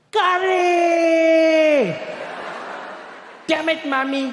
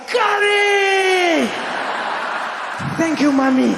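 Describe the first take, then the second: First: High, drawn-out exasperated mock scream; top-of-lungs scream. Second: Very high, loud, drawn-out mock-joyful shout; ecstatic scream. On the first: Boy opening his packed lunch, screaming in dismay. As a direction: wail the first word long and high, cursing mom. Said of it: "he'd scream at the top of his lungs". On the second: Boy tasting curry for the first time, screaming with delight. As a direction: squeal the first word long, a hammed-up rapture. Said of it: "I just, I was like".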